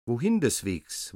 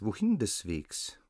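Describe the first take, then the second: First: Strange hissing gander call. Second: Hissing voice. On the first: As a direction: hiss the question like a gander. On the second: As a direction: let the hiss fall away. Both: A narrator's reading. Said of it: "sonderbare, zischende Stimme".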